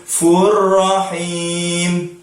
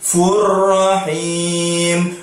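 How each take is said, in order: The two takes are said the same way.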